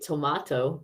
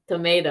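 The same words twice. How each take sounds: First: It is said with a British accent. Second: It is said with an American accent.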